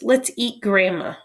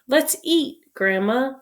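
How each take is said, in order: First: It runs on with no pause before grandma. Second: There is a pause before grandma.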